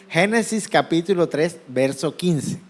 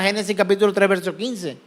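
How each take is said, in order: First: It is said slowly. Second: It is said fast.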